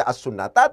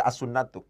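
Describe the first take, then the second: First: As-sunnata with a final a, the wrong case ending. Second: As-sunnatu with a final u, the correct rafa ending; correct nominative ending. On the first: Teacher shows the class the wrong reading, as-sunnata ending in a. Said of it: "Tidak dibaca as-sunnata". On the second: Teacher gives the class the right reading, as-sunnatu ending in u. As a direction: say as-sunnatu, closing on a rounded u. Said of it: "tapi dibaca as-sunnatu". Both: Shown as a demonstration.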